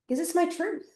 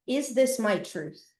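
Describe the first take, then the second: First: Much higher questioning rise on my; asking herself again. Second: Slow, level inward question; asking herself. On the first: Repeating the question to herself, rising higher. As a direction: lift the pitch on my, a searching rise. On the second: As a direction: ponder it slowly, falling on this. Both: Retold or imitated. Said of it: "I kept asking myself this question".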